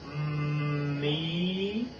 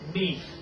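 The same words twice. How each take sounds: First: The word is drawn out slowly. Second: The word is said quickly. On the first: "This is slow" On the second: "This is fast"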